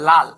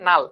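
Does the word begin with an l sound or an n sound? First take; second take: l sound; n sound. First: The word begins with an l sound. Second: The word begins with an n sound. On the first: "দুইটা ল কিন্তু" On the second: "আমরা বলছি নাল"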